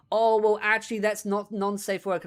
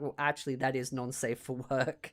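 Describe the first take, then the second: First: Lightly voiced smug correction, mimicking; mock smug Demi. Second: Said in the usual way. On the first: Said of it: "And it's like". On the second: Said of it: "And I'm like".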